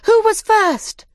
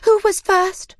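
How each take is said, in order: First: Even higher, louder and slower; excited shout. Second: High, loud crowd cry; excited shout. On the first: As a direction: cry it out even more eagerly. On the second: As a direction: shout out eagerly. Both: A narrator's reading. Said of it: "they shouted".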